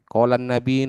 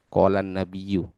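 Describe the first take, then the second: First: The last word ends without its final ending. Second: The last word ends with its full ending. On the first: "kadang karena kita pakai bahasa Indonesia" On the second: "yang seharusnya"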